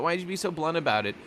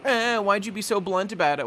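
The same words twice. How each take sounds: First: Quicker mock complaint. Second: A touch of a whining crew member scolding; mock whiny complaint. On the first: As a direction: rattle off the complaint again, lightly mocking. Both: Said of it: "everyone here ... is all getting on his case".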